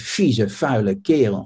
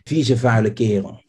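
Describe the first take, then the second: First: The first consonants of the words are voiceless. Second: The first consonants of the words are voiced. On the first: The speaker is really angry. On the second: A neutral insult.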